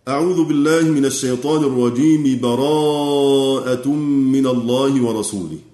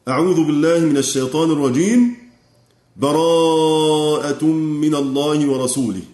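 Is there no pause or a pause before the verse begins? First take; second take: no pause; pause. First: Both phrases run together without a pause. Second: A pause comes after the first phrase. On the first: The seeking of refuge is joined to the verse. "أو يصل" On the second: The seeking of refuge is separated from the verse. "فإما أن يقف"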